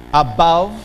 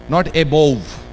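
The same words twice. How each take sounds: First: "Above" rising onto BA; stress on BA. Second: "above" said as "e-bov", marked as wrong. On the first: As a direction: lift "a-BOVE". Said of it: "Ba is stressed". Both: Shown as a demonstration.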